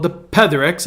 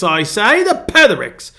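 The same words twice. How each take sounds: First: Said in the usual way. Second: Mock-British, pitched high and louder; a hammed-up attempt at British English; feeble British accent. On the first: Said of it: "I don't wanna say it in English". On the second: Shown as a demonstration. Pastor showing off the channel's name, feeble British accent. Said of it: "very feeble attempt at a British accent".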